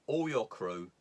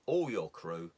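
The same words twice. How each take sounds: The two takes are said the same way.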